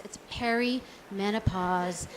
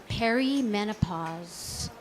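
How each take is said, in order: First: Perimenopause said slowly and softly, each syllable clear; correcting perimenopause. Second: Perimenopause said slowly, peh-ree-MEN-o-pause; drawn-out perimenopause. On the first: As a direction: set the record straight on perimenopause, slow and firm. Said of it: "not like [name] or [name]". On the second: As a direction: spell out perimenopause slowly with a rising end. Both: Shown as a demonstration.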